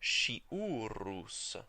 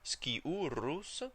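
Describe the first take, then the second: First: The word begins with an sh sound. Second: The word begins with an sk sound. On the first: "it actually changes to a sh sound" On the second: "For the restored pronunciation"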